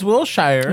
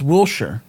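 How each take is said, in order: First: The second part sounds like the word shire. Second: The second part does not sound like shire. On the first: This is how the coworker says the name. The speaker calls it wrong. "so you just add Will in the front" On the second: This is how local people say the name. The speaker calls it right. "if people from out here, they pronounce it Wilshire"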